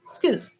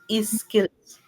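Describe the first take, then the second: First: The word starts directly with the s sound. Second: An extra vowel sound comes before the s. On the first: The speaker calls it right. "you should only start with sir" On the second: The speaker calls it wrong. "you pronounce it as E"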